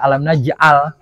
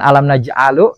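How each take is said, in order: First: The last word ends on a consonant. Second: The last word ends on a vowel. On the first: The speaker calls it right. "kenapa dibaca alam naj'al" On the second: The speaker calls it wrong. "bukan alam naj'alu"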